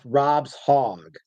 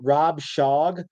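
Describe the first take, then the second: First: The s-sound ends the first word, Rob's. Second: The s-sound starts the second word, Shog. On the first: The speaker calls it right. "I think it's pronounced Rob's Hog" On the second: The speaker calls it wrong. "I've been pronouncing it Rob Shog"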